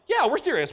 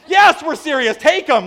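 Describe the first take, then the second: First: High, slightly louder assurance; imitated eager yes, short of a shout; retold insistence. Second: High, loud mock exasperation; hammed-up emphatic yes; shouted insistence. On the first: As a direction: confirm it brightly to someone who doubts you. Reassuring the doubting mom, first time. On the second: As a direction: shout back so they finally believe you. Escalating acted exchange with stunned mom.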